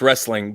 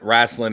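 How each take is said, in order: First: The word is said in its standard form. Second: The word is said in a folksy Southern form. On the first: This is the technically correct form. "technically it's wrestling" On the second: This is what the old boys call it. "wrestling is what you know the old boys call it"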